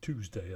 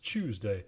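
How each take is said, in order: First: The first consonant is a plain t sound. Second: The first consonant is palatalized toward ch.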